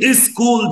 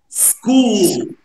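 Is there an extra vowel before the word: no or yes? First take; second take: yes; no. First: An extra vowel is added before the initial s. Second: The word starts directly with the s sound. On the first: The speaker calls it wrong. "مش عايز حد يقول ايه سكول دي" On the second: The speaker calls it right. "احنا اتفقنا نقول سكول"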